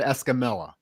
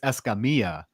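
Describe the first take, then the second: First: The double L is sounded like an L. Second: The double L is sounded like a Y. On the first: This is the simplified version used where few people know Spanish. "So I just always said Escamilla" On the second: This is the traditional Spanish pronunciation.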